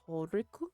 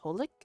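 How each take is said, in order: First: It is said as three syllables, Japanese-style. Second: It is said as two syllables, English-style. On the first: "in Japanese Horiku" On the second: "in English it's Holik"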